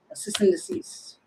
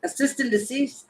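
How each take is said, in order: First: Whispered to herself; a whispered repeat of the odd phrase. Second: Said in the usual way. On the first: Real, not acted. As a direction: murmur it unvoiced, puzzled. Repeats the word under breath.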